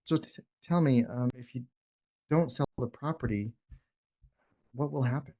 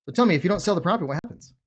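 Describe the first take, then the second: First: Slower, softer question with pauses; the right way, unhurried and soft; slow, calm ask. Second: Fast, clipped-off question, a bit louder; the wrong way, hurried and pushy; rushed, pushy ask. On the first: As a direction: ask gently and give it room. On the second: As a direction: fire the question off too quickly. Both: Shown as a demonstration. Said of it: "You guys see the difference?".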